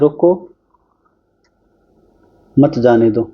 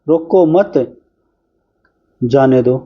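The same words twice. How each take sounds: First: There is a pause right after 'roko'. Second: There is a pause right after 'mat'. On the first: Stop it, do not let it go. "तो रोक लो इसको, जाने मत दो।" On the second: Do not stop it, let it go. "मतलब इसको रोको मत भाई, जाने दो"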